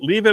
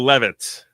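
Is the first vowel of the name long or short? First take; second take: long; short. First: The first vowel is long, like 'leave'. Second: The first vowel is short, like 'lev'. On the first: "but you can say leave it" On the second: "Like it's unleavened"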